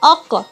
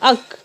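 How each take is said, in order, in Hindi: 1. अंतिम q एक छोटी गूंज के साथ उछलकर छूटता है। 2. अंतिम q बिना किसी गूंज के अचानक रुक जाता है। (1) "इसको भी जब हम पढ़ेंगे तो आवाज़ लौटेगी" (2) "तो उसको जब हम पढ़ेंगे तो आवाज़ नहीं लौटेगी"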